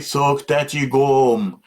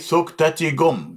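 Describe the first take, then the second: First: The vowel in the last word is long. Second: The vowel in the last word is short. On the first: Thine is the book. The speaker calls it wrong. "don't say Thok Tati Gom, because Gom, long, means book" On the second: Thine is the power. The speaker calls it right. "So I say Thok Tati Gom, means thine is the power"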